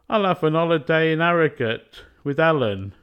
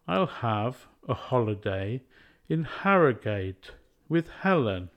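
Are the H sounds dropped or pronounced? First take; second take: dropped; pronounced. First: The H sounds at word starts are dropped. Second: The H sounds at word starts are pronounced.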